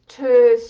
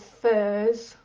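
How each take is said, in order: First: It is pronounced with a Danish sound. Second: It is pronounced without the Danish sound.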